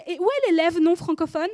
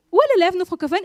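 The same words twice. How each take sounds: First: Teacher calling the roll, raised voice; louder called-out question. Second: Louder and higher, calling out again for l'élève non francophone; loud impatient roll call. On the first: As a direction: call across the class for l'élève non francophone. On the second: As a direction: insist across the room, impatient. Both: Retold or imitated.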